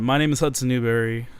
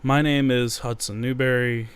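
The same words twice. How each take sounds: First: It is said in an upbeat, energetic way. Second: It is said in a flat, low-energy way.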